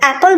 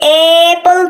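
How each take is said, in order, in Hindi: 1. पहला स्वर छोटा है, 'cat' जैसा। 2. पहला स्वर लंबा है, 'ay' जैसा। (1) "एप्पल बोलते हैं" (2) "हम लोग इसे एप्पल तो नहीं बोलते ना"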